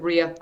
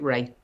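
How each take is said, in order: First: The name sounds like 'ree-uh'. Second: The name rhymes with 'day'. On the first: This is how another person with the name says it. "he pronounces it Rea" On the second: This is how the speaker says her own name. "I pronounce it Ray"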